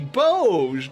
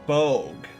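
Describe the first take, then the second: First: The final g is soft, like j. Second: The final g is hard, like in ogre. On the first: The speaker calls it wrong. "Doge, but with a B" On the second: The speaker calls it right. "it's pronounced uh with a hard O and G, like ogre"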